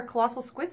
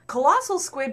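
First: Said in the usual way. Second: Colossal squid, with Colossal punched and falling; stress on Colossal. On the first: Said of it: "Colossal squid, by the way, is its real official name". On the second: Shown as a demonstration. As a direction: lean hard on Colossal. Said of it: "is its real official name".

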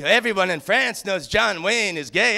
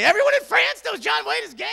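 First: Calm mock French accent, ending on a rise. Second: Higher, incredulous echo; outraged disbelief. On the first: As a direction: say it smugly in a light French accent. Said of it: "She had the greatest French accent". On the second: Retold or imitated. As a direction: throw her words back in disbelief. Incredulous repeat of her claim.

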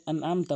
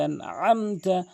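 First: আনআমতা with plain vowel for ain; quick light আনআমতা; common mispronunciation. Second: Slow আনআমতা with mid-throat ain; strong ain in আনআমতা; correct ain. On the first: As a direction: say আনআমতা with no throat squeeze. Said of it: "অধিকাংশ লোক আনআমতা বলে". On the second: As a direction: squeeze the second আ of আনআমতা from the throat. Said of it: "আইনটি হলকের মাঝখান থেকে". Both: Shown as a demonstration.

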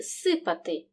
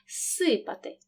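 First: Said in the usual way. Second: Long hissed с opening «сипати»; lengthened s. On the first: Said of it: "префікс «з» перед глухим «с»". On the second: Shown as a demonstration. Teacher shows pupils one prolonged sound, lengthened s. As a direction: hold the first s of «сипати»: ssypaty. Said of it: "показуємо один подовжений звук".

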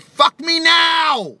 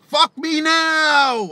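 First: High, slow shouted "Fuck me now!"; screamed demand. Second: High, slow, drawn-out "Fuck me now!"; repeated screamed demand. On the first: A Bulgarian girl yells at him, a slow high shout. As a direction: belt it out like a frantic lover. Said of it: "She said". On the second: Retelling the Bulgarian girl's demand, high drawn-out yell. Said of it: "He was like". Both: Retold or imitated.

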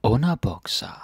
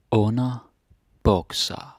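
First: Said in the usual way. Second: Word drawn out slowly in parts; slow, segmented pronunciation demo; slow teaching repetition. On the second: Shown as a demonstration. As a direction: model it slowly for learners, splitting the compound.

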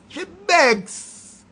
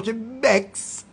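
First: High, sneering "She begs"; mock "begs" pitched high. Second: Said in the usual way. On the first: Shown as a demonstration. Scene: mocking people who beg for wedding money, high sneer.

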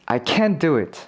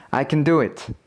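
First: CAN'T stressed with full vowel, T barely released. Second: Weak, reduced CAN with the stress on DO; unstressed can. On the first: Teacher giving a listening example, stressed can't. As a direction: lean on 'can't', falling away after it. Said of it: "강세가 있으면 부정일 때가 많다". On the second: Teacher giving a listening example, unstressed can. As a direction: slide over 'can', land on 'do'. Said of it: "강세가 없으면 긍정일 때가 많고". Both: Shown as a demonstration.

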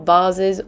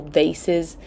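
First: Said in the usual way. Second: "Vases" said as VAY-siz; alternative pronunciation of "Vases". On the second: Shown as a demonstration. Offers both pronunciations of vases.

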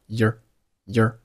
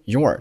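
First: "year" as a short weak form of your; reduced "your". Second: Said in the usual way. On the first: Shown as a demonstration. Teacher drilling the weak form, your reduced to "year". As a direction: shrink your to a quick "year". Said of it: "your读成了year". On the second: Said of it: "其中your读成了year".

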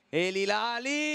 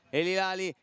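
First: Drawn out, higher, building to the shot; rising excitement. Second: Said in the usual way. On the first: Acted. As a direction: stretch the name as the shot comes. Telecronaca, tiro verso la porta. (telecronaca che sale di tensione)

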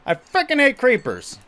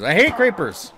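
First: Louder, high-pitched rant on hate; real gamer frustration shout; exasperated yell. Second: Annoyed. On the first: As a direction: throw frickin' hate out in frustration. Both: Real, not acted. Frustrated at creepers in game.

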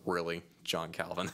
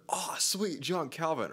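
First: Flat, doubtful disbelief at the name; sceptical groan. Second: High, bright excited delight at the name; excited fan reaction. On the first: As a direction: sound unimpressed and doubtful. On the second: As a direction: cheer the name like a happy fan. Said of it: "your response is either". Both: Pretend.

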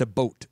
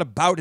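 First: "a boat" for "about", with a long o; Minnesota vowel. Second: Said in the usual way. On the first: Shown as a demonstration. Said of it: "it's, it's a boat". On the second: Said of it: "it's not about".

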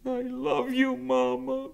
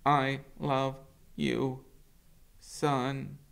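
First: Put-on much higher young goose voice; gosling's goodbye. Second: Higher, slow robot voice; robot mother's goodbye. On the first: Brightbill to his mother at parting, high and childlike. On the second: Acted. Roz to her son at parting, slow and gentle. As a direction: answer slowly and gently as the mother. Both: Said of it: "Brightbill hugged his mother's worn face".

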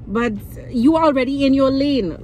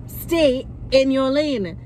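First: Said in the usual way. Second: Slow, deliberate "Stay in your lane."; "Stay" sterk benadrukt, elk woord langzaam en apart; quoting a saying. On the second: Shown as a demonstration. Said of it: "Like the saying says".

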